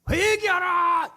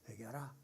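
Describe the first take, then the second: First: It is said loudly and with passion. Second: It is said quietly and calmly. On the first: The speaker calls it right. "이 속에서 패션 열정" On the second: The speaker calls it wrong. "이랬겠어요?"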